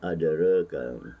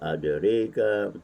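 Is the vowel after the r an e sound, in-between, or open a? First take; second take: in-between; e sound. First: The vowel after r is between a and e. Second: The vowel after r leans toward an e. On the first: "ada yang baca dengan taqlid" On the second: "dengan imalah"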